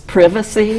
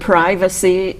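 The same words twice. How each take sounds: First: It is said with a British pronunciation. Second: It is said with an American pronunciation. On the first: "they pronounce differently" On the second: "words that are really the same uh, as they are here"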